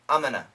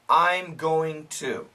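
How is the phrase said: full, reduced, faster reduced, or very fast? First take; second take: faster reduced; full. First: It is reduced and said a bit faster. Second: Every word is said fully and carefully. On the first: "A little bit faster and very common" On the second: "Perfect pronunciation"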